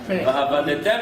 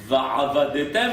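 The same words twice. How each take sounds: First: It has a plain glottal aleph sound after 'va'. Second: It has a deep guttural ayin sound after 'va'. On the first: You will lose other gods. The speaker calls it wrong. "si quelqu'un ne prononce pas le aïn" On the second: You will serve other gods. The speaker calls it right. "Le mot servir, c'est la avod"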